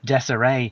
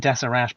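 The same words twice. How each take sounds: First: The final T sound is left silent. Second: The final T sound is clearly pronounced. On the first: "maybe it's called Deseret" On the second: "I'll say Deseret, pronounce the, the T at the end"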